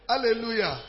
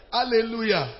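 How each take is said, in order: Both takes have the same delivery.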